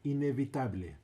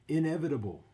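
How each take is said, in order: First: The word is pronounced with Spanish vowels and rhythm. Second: The word is pronounced with English vowels and rhythm. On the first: "you just putting the Spanish flair on it" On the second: "is what that means"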